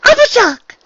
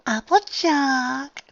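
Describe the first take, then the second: First: Very high, loud delighted cry; exclaimed. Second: High, drawn-out breathy gasp. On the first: Unicorn greets her friend at the door, exclaiming. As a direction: exclaim the friend's name in one burst. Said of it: "The unicorn exclaimed". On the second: Dressmaker has a moment of enlightenment, gasping out. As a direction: gasp the name slowly in sudden realization. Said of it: "the dressmaker guessed out briefly". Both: Acted.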